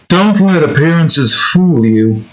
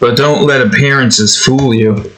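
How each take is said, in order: First: It imitates the green Moonanites leader's voice. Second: It is said in his own natural voice.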